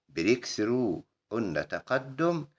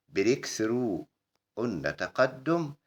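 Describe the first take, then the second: The two takes are said the same way.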